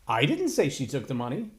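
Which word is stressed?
didn't. The emphasis is on the word 'didn't'.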